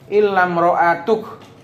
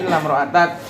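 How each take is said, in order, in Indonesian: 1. Suku kata terakhir berakhir dengan bunyi 'uk'. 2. Suku kata terakhir berakhir dengan bunyi 'ak'. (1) "Qiraah imra'atuk" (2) "Kalau yang kita hafal apa? Illam ra'atak"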